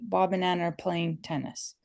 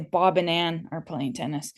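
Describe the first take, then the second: First: No word is stressed more than the others. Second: Bob and Ann carry the stress.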